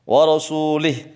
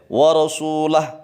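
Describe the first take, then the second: First: The vowel after the L is i. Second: The vowel after the L is a. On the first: The speaker calls it wrong. "haram menjadi musyrik kalau lamnya di kasrah" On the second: The speaker calls it right. "atau boleh wa rasulah, lamnya di fathah"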